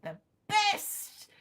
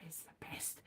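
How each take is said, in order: First: "the best" jumped much higher with a rising tune; high exclaim. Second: Unvoiced whisper of "It's the best". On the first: Acted. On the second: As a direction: breathe "the best" as a secret. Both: Whisper then high repeat.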